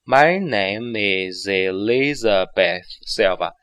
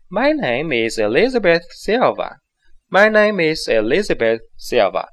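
First: Slow, linked sentence; slowed demo. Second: Natural, lively pace; natural speed. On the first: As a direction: read it slowly with every link. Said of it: "我们放慢一下速度". (放慢速度完整连读) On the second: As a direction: say it the way you really would. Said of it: "你做到这样自然的状态". (自然语速连读) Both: Shown as a demonstration.

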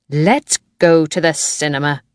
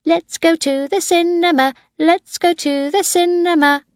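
First: Said in the usual way. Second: Put-on child shouting. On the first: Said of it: "Juliet said suddenly". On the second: A narrator's reading. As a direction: chant it like an eager boy of five. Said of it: "Tim began to shout".

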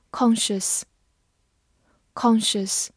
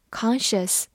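First: Said in the usual way. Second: "conscious" with an American open "ah" vowel; American pronunciation. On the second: Shown as a demonstration. Teacher showing learners the US variant, American pronunciation of "conscious". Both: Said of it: "美式发音".

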